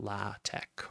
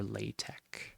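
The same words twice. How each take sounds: First: LaTeX with open AH, final K; LaTeX as LAH-tek. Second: LaTeX with long AY, final K; LaTeX as LAY-tek. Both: Shown as a demonstration. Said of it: "when you're pronouncing this".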